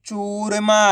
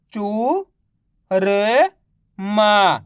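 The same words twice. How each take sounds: First: चूरमा run together without pauses; blended word. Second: Long gaps between drawn-out चू, र and मा; syllable by syllable. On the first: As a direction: say churma joined up as one word. (चूरमा को मिलाकर एक शब्द में) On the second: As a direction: sound out चू, र, मा one at a time. (चू, र, मा को अलग-अलग खींचकर) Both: Shown as a demonstration. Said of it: "तो मिलके बन जाएगा".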